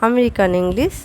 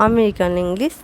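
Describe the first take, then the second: The two takes are said the same way.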